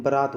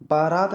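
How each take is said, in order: First: बारात with short first vowel, "ba-raat"; correct pronunciation. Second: बारात with long first vowel, "baa-raat"; wrong pronunciation. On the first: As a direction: teach बारात as "baraat", first syllable short. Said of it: "बारात होती है". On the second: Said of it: "बारात नहीं होती". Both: Shown as a demonstration.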